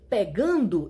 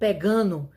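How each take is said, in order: First: The ending is said fully with its d sound. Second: The ending is shortened and the d is dropped.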